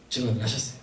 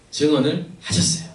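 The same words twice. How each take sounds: First: 증언을 repeated far softer and lower; much softer echo. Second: 증언을 said at normal volume with a slight rise; plain statement. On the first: Preacher quietly echoing 증언을 to the congregation, hushed. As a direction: let 증언을 drop to a hush. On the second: Preacher telling the congregation 증언을, plainly. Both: Real, not acted.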